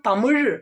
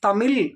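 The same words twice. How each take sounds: First: The word ends in a retroflex zh sound. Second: The word ends in a plain l sound. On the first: This is how Tamil speakers say it. "நாம தமிழ் அப்படின்னு சொல்றோம்" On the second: This is how speakers of the other languages say it. "இங்க ழகரம் லகரமா மாறி இருக்கு"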